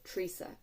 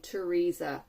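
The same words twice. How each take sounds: First: The first syllable sounds like 'tree'. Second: The first syllable is a fuller, separate syllable. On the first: "more T R E E sounding" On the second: "than Teresa"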